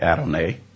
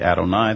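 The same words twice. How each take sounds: First: It has an Oklahoma American pronunciation. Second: It has an Israeli Hebrew pronunciation. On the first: "They don't say Adonai" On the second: "in Israel, they say Adonai"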